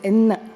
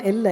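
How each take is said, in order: First: The middle consonant is an n sound. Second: The middle consonant is an l sound. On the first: The speaker calls it right. "it is Enna" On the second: The speaker calls it wrong. "it is not Ella"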